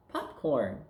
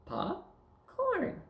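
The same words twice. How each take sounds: First: Said in the usual way. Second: "Pop", pause, then very high "Corn"; two separate words, "Pop" and "Corn"; word chopped up. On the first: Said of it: "now we're gonna take words apart". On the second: Shown as a demonstration. Teacher repeating the take-apart drill, separate "Pop", "Corn". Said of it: "We're gonna chop 'em up".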